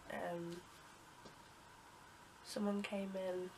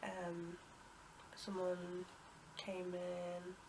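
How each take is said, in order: Both takes have the same delivery.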